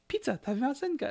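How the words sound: Pizza is pronounced with English sounds. The speaker calls it wrong.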